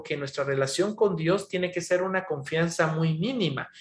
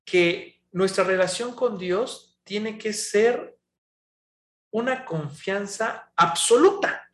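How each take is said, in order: First: Said in the usual way. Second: Slow, stressed "una confianza absoluta"; emphatic true teaching. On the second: Shown as a demonstration. Preacher to the congregation, stressing the right teaching slowly. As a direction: lean hard on "absoluta", drawn out and slow. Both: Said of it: "se ha mal enseñado".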